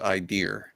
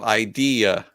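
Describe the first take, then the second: First: The word is said with two syllables. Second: The word is said with three syllables. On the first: "she says idea" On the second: "we go idea"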